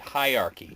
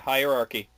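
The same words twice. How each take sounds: First: The R sound after the first syllable is dropped. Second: The R sound after the first syllable is pronounced. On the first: The speaker calls it wrong. "some people say hierarchy" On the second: The speaker calls it right.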